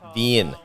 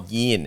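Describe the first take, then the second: First: The word starts with a v sound. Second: The word starts with a y sound. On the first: This is the standard pronunciation. "instead of vien" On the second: This is the local Saigon pronunciation. "I said bum bo yin"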